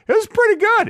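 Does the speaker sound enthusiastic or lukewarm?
enthusiastic. The phrase sounds warm and enthusiastic. It was really quite good. "It's like a 7 or 8"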